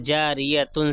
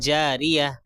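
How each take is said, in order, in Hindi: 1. शब्द पूरे '-tun' अंत के साथ खत्म होता है। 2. शब्द '-tun' अंत के बिना, धीरे से खत्म होता है।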